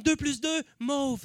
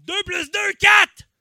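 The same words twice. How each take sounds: First: Right brain. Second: Left brain. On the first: Comic playing the irrational right brain, answer left unshouted. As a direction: offer MAUVE gently as the answer. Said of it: "t'as le cerveau droit qui est comme". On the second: Comic playing the rational left brain, answer shouted. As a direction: burst into a high, loud shout on QUATRE. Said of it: "t'as le cerveau gauche qui est comme". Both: Acted.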